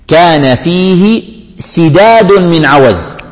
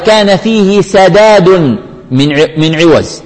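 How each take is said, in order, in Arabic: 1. الكلمة sidad فيها 'i' بعد الـ s. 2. الكلمة sadad فيها 'a' بعد الـ s. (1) "ليس هكذا يا أمير المؤمنين" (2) "سداد بفتح السين وليس بكسرها"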